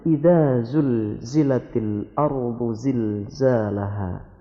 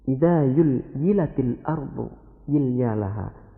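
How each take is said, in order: First: The za sounds are pronounced as a clear z. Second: The za sounds are replaced with a y sound. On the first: This is the correct pronunciation. The speaker calls it right. "Padahal sebenarnya" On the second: This is a regional dialect's mispronunciation. The speaker calls it wrong. "ada lagi satu daerah yang tidak bisa menyebut huruf za"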